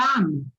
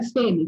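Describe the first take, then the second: First: "fame" with a wide open A; open A pronunciation. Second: "fêmea" said with an E vowel; wrong E pronunciation. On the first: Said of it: "aberto mesmo". ("fame" com A bem aberto) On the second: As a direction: say "fêmea" with E instead of open A. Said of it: "a pronúncia da palavra mulher não é". ("fêmea" pronunciado com E) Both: Shown as a demonstration.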